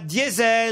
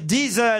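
First: The word is pronounced the usual French way. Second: The word is pronounced the Italian way. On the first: The speaker calls it wrong. "on ne dit pas diesel" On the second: The speaker calls it right. "on doit dire diesel à propos de la marque italienne"

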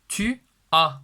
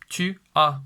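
Both takes have the same delivery.

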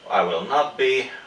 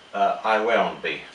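First: The negative is said in full as two words. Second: The negative is contracted into one syllable. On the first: The speaker calls it wrong. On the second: The speaker calls it right.

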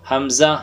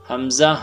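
Both takes have the same delivery.

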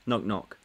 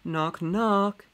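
First: It is read in a flat, monotone voice. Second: It is read with more lively expression. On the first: The speaker calls it wrong. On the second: The speaker calls it right.

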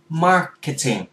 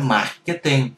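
First: The R and T sounds are English-style. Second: The R and T sounds are Vietnamese-style. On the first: The speaker calls it right. "gắn chuẩn R và chuẩn T luôn" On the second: The speaker calls it wrong. "Không phải marketing"

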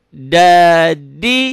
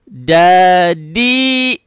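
Both takes have the same delivery.

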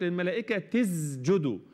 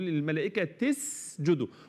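First: The s sound is voiced, like a z. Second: The s sound is voiceless and hissed. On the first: The speaker calls it wrong. "للملائكه تز، ده غلط" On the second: The speaker calls it right. "ركز قوي على السين"

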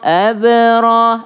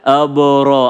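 First: The ba is pronounced thin and light. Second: The ba is pronounced thick and heavy. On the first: The speaker calls it right. "Jadi banyak tipis dulu" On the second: The speaker calls it wrong. "Jangan sampai yang tipis masuk ke tebal. Apa contohnya masuk ke tebal?"

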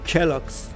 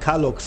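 First: The first vowel sounds like 'e'. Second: The first vowel sounds like 'a'. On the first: The speaker calls it wrong. "nicht Kelloggs, so sorry" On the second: The speaker calls it right. "Kalloggs, nicht Kelloggs"

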